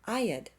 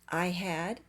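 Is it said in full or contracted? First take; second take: contracted; full. First: The words are contracted into one syllable. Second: Both words are said fully.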